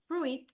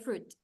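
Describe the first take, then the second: First: An extra vowel sound follows the r. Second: No extra vowel sound follows the r. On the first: The speaker calls it wrong. "Instead of fruit" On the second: The speaker calls it right. "we say fruit"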